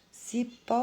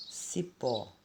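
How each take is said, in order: First: "Cipó" called high with PÓ stretched long; calling the word. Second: Said in the usual way. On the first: Shown as a demonstration. Teacher calls cipó to find the tonic syllable, calling with long PÓ. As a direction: hail "Cipó", dragging out the final PÓ. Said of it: "Chama a palavrinha". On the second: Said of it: "a palavrinha".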